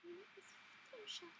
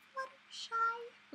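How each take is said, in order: First: High, much softer Fluttershy voice. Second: High, slow, failed Fluttershy voice; a badly missed high pony voice. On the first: Vlogger retrying a quieter Fluttershy impression. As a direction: breathe it high and soft like a timid pony. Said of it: "Is that better?". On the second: Vlogger tries her Fluttershy impression and flubs it. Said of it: "Okay, that was terrible". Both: Shown as a demonstration.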